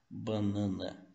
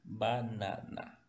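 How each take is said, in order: First: The vowels are nasalized through the nose. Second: The vowels are open and not nasalized. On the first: This is the Portuguese pronunciation. "No português nós utilizamos muito o nariz" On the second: This is the Spanish pronunciation. "Em espanhol o som do A é aberto"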